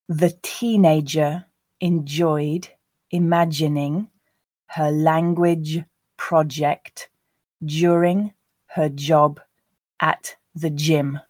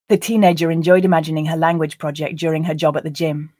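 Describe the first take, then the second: First: The sentence is read at a slow pace. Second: The sentence is read at a natural pace. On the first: "I'll read it once slowly for you to grasp the words" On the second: "then two more times at a more natural pace"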